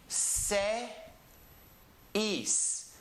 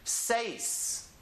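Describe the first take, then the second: First: The word is split into two parts. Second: The word is said as one syllable. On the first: "We have an E and an E" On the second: "put it together as one syllable"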